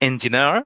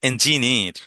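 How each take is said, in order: First: It is said in an American accent. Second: It is said in a British accent. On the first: "যদি আপনি American বলেন তাহলে" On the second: "আর যদি British বলেন তাহলে"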